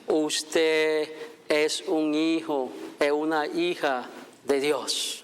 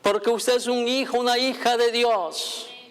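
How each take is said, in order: First: It is said slowly, in slow motion. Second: It is said at normal speed.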